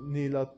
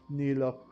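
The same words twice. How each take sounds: The two takes are said the same way.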